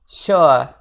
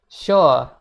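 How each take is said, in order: First: The final R is silent. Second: The same.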